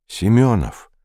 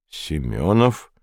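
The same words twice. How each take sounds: First: Said in the usual way. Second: Slow, lower Семёнов with a rising end; puzzled, drawn-out query on Семёнов; surprised echo question. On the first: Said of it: "удивлённо переспросил". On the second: A narrator's reading. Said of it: "удивлённо переспросил Вандерхузе". (удивлённый переспрос: «Семёнов?»)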